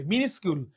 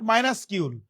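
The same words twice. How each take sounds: First: মিনিসকিউল with short "mi-nis", pitched lower; correct pronunciation. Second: মাইনাসকিউল wrongly begun like "minus"; mispronunciation demo. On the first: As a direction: say মিনিসকিউল starting "mi", not "my". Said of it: "এই উচ্চারণটা কিন্তু অনেকে ভুল উচ্চারণ করে". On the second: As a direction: say মাইনাসকিউল with "my" as first syllable. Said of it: "অনেকে ভুল উচ্চারণ করে". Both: Shown as a demonstration.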